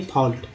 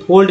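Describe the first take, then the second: First: फॉल्ट with open "aw" and final T; right "fault". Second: फोल्ड with closed long O and final D; wrong "fold". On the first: Teacher correcting the slip for learners, फॉल्ट with open vowel and T. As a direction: say फॉल्ट as "fawlt". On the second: Teacher rejecting the common slip, फोल्ड with O and D. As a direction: say फोल्ड as "fohld". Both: Shown as a demonstration. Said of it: "भाई फोल्ड नहीं फॉल्ट".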